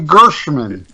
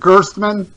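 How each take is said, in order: First: The name is said without a T sound. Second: The name is said with a T sound. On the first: The speaker calls it wrong. "I forget the T" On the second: The speaker calls it right. "Isn't it Gerstmann? Yes, you got it right now"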